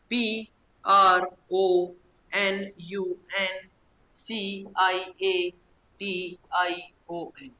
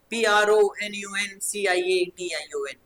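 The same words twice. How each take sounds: First: Slow spelling, "P R O", "N यू N", "C I A", "T I O N"; in chunks. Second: Rhythmic, connected spelling-out; grouped spelling. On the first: Teacher drilling pupils on memorising, slow separate chunks. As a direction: pause after each letter group, every letter drawn out. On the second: Teacher showing pupils how to memorise, grouped letters recited in one run. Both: Shown as a demonstration. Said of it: "टुकड़ों में".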